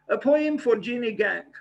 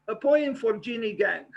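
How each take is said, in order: The two takes are said the same way.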